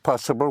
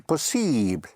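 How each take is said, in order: First: It is pronounced with English sounds. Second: It is pronounced with French sounds. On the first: "like possible" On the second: "would be possible"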